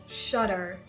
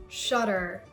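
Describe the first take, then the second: The two takes are said the same way.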